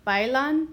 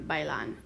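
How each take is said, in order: First: "Bailan" said loud as BAI-lan, rising; stress on first syllable. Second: "bailan" as bai-LAN, lower and falling; stress on last syllable. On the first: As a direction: punch BAI in "Bailan", questioning lift at the end. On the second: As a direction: move the weight onto LAN in "bailan". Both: Shown as a demonstration. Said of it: "listen to where we hear the stress".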